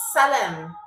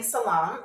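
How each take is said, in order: First: "salem" with a short e ending; local Kazakh pronunciation. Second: "salam" with an open ah in the last syllable; others' mistaken pronunciation. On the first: Shown as a demonstration. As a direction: say "salem" as sah-LEM, not suh-LAHM. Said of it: "That's how they say it". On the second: Retold or imitated. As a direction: say "salam" as suh-LAHM. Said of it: "what you mean by saying salam".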